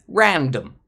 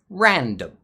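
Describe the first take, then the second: No difference in how they are said.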